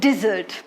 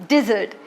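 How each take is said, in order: No difference in how they are said.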